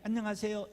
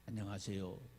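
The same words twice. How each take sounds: First: The greeting sounds high and cheerful. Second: The greeting sounds low and gloomy. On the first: The speaker calls it right. "명랑하게 하죠" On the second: The speaker calls it wrong. "이렇게 음산하게 얘기를 해"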